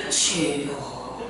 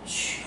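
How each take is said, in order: First: Lower, very slow, hushed "주여"; hushed drawn-out prayer. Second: Barely voiced, hushed "주여"; quiet prayer. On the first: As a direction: draw "주여" out slowly and softly. (낮고 아주 느리게 "주여") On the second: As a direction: breathe out "주여" softly. (아주 조용히 "주여") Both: Shown as a demonstration. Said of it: "이렇게 해야 된다는 거야".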